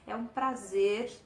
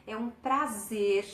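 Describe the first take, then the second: No difference in how they are said.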